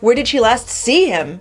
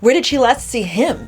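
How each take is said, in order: First: The word see carries the main stress. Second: The word him carries the main stress. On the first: Seeing him, not hearing about him, is the point. "as opposed to hear about him or talk to him on the phone" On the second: The speaker feels disdain or disbelief about the person. "implies perhaps a disdain or an incredulous focus on him"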